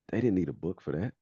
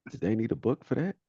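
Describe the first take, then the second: First: Raised, louder comic disbelief; mock incredulous. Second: Much higher and louder, rising comic disbelief; mock incredulous question. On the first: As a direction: imitate a comedian making a pointed observation. Retelling a comedian's punchline. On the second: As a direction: push the punchline up into an astonished question. Comedian's punchline turned into question.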